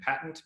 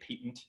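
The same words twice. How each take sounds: First: It is said with an American pronunciation. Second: It is said with an Australian pronunciation.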